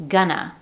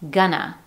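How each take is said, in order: First: The words blend into one weak schwa form. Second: The words blend into one weak schwa form.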